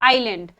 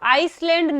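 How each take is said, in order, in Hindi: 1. इसमें s ध्वनि के बिना बोलते हैं। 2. इसमें s ध्वनि के साथ बोलते हैं। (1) "एस साइलेंट होगा और हम कहेंगे आइलैंड" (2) "आइसलैंड मत बोला करो, आइसलैंड नहीं होता है"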